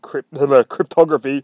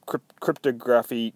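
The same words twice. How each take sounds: First: "cryptography" stressed on the second syllable, with a laugh; corrected pronunciation. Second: "Cryptography" with stress shifted onto the first syllable; mispronounced word. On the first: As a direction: correct it to cryp-TOG-raphy. Laughing self-correction of the word. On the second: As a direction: stumble into "Cryptography" as CRYP-to-graphy. First attempt at a tricky word. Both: Real, not acted.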